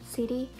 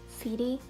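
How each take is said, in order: No difference in how they are said.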